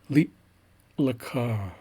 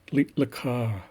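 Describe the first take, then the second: First: There is a long, exaggerated pause after li. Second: There is only a very short pause after li. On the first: "I'll kind of exaggerate that pause" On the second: "at a more regular speed"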